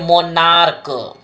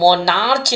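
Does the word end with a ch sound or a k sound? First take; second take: k; ch. First: The final consonant is pronounced k. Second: The final consonant is pronounced ch. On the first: The speaker calls it right. "इसको क्या पढ़ेंगे मोनार्क" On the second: The speaker calls it wrong. "इसको मोनार्च नहीं पढ़ेंगे"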